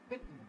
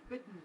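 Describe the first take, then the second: The two takes are said the same way.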